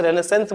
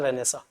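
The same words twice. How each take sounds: First: "रेनेसेंस" ending in a sounded "-sens"; common anglicised pronunciation. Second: "रेनेसा" ending in an open "-saa"; literary pronunciation. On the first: Teacher quoting how some people say it, "रेनेसेंस" with a full "-sens" ending. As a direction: say "रेनेसेंस" with the final n and s pronounced. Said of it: "कुछ लोग इसे रेनेसेंस बोल देते हैं". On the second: Teacher giving the pronunciation used in literature, "रेनेसा" with a silent ending. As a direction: say "रेनेसा" French-style, dropping the final "ns". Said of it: "ये pronunciation literature में चलता है".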